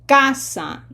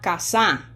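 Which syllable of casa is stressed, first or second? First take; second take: first; second. First: The stress is on the first syllable. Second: The stress is on the second syllable. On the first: The speaker calls it right. "pronunciation emphasis is on syllable number two, which is ca" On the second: The speaker calls it wrong. "not casa"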